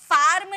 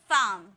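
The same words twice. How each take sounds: First: फार्म with the R fully sounded; wrong full R. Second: फार्म with the R nearly silent; half R. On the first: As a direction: say फार्म as "faar-m", R rolled out clearly. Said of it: "फार्म नहीं बोलेंगे". (फार्म में पूरा र बोलते हुए) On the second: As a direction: say फार्म as "faam", long open vowel. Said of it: "आर को हमेशा half में pronounce". (फार्म में र आधा, लगभग चुप) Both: Shown as a demonstration.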